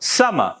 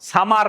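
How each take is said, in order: First: It is said with English-style sounds. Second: It is said with Bengali-style sounds. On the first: The speaker calls it right. "No, summer, summer" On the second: The speaker calls it wrong. "সামার না।"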